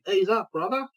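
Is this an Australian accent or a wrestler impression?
Australian. Said in an Australian accent. "I'll do Aussie"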